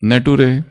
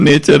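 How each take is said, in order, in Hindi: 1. यह ne-too-ray की तरह बोला जाता है, साधारण t के साथ। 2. यह nay-cher की तरह बोला जाता है, ch की ध्वनि के साथ। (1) "वो नटूरे और फटूरे नहीं है" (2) "वो नेचर है"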